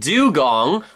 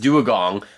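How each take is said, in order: First: The word begins with a plain 'du' sound. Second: The word begins with an extra 'duo' sound. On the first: The speaker calls it right. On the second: The speaker calls it wrong.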